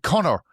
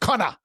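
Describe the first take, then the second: First: Connor is said with an American accent. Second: Connor is said with an Australian accent. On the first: "an American friend um, when he was younger who would call him Connor" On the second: "With the Australian accent with C O W N A"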